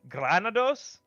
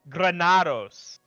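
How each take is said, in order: First: The 'na' syllable gets little force. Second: The 'na' syllable gets strong force.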